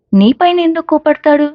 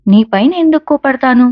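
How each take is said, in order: First: పైన lifted high and stressed, ఎందుకు unstressed; stress on on you. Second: ఎందుకు lifted and stressed, పైన unstressed; stress on why. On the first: Vasanth teasing Rishi, stressing పైన. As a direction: set up the joke by leaning on పైన. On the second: Rishi to Vasu, stressing ఎందుకు. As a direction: lean on ఎందుకు, asking why he'd be angry. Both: A narrator's reading.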